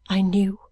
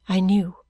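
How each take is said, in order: First: Breathy hushed repeat of I knew; whispering. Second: Said in the usual way. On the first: A narrator's reading. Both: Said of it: "repeated in whisper".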